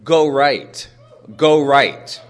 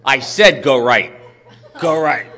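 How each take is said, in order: First: Louder, firm repeated order; a stranger directing loudly on the stairs; retold insistent command. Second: Louder, exasperated insistence; annoyed stranger repeating herself; perturbed repeat. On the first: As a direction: call out the direction firmly. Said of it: "I hear this woman say". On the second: Retold or imitated. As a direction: snap the order again, fed up. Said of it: "she seemed really perturbed".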